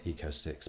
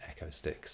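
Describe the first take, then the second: First: The first part sounds like 'eco', with 'ee'. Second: The first part sounds like 'echo', with 'eh'. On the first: The speaker calls it wrong. "Lots of people call it Eco Sticks" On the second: The speaker calls it right. "but Echo Sticks, as in acoustics"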